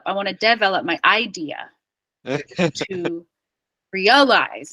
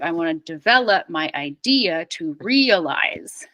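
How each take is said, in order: First: The stress in develop is on the first syllable. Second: The stress in develop is on the second syllable. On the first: The speaker calls it wrong. "I hear French speakers always saying like develop" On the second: The speaker calls it right. "instead of"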